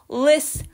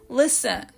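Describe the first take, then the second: First: "lis" clipped quick and light; "lis-" short and light; short first syllable. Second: "listen" said whole with the accent on "lis"; "listen" stressed on "lis"; full listen. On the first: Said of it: "最初のところは短めに発音して". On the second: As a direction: say "listen" clearly, head-stressed. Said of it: "最後のlistenっていう感じでね、はっきり発音します". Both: Shown as a demonstration.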